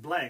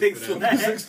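First: The name is said as one word, black. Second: The name is said as two words, six lack. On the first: The speaker calls it right. "He's like" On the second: The speaker calls it wrong. "That's how I first pronounced it"

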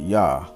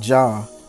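First: The name begins with a Y sound. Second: The name begins with a J sound. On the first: The speaker calls it right. "but Yah" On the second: The speaker calls it wrong. "Not Jah"

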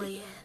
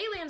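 First: It is said in a flat, completely serious tone. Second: It is said in a joking, dismissive tone.

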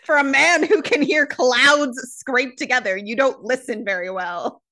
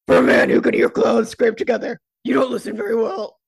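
First: It is read in a natural speaking voice. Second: It is read in a deep, gravelly put-on voice.

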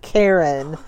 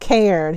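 First: It is said in two syllables, like Karen. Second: It is said as a single syllable. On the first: The speaker calls it wrong. "He pronounced it Karen" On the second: The speaker calls it right. "He mispronounced Cairn"

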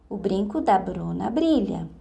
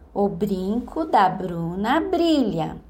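First: The phrase is said somewhat faster. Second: The phrase is said very slowly. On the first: "Um pouco mais rápido" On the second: "Primeiro, bem devagar"

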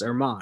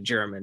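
First: The word begins with an H sound. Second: The word begins with a J sound. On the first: The speaker calls it right. "It's Hermann" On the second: The speaker calls it wrong. "you don't pronounce it like the nationality German"

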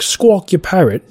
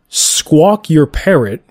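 First: It is said in an imitated British accent. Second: It is said in the speaker's ordinary accent.

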